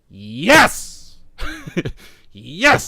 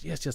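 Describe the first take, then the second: First: It sounds eager and excited. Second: It sounds timid and restrained. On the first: This is what was felt inside. "That was in my head. I didn't really say it like that" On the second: This is what was actually said aloud. "I kind of kept it somewhat timid and professional"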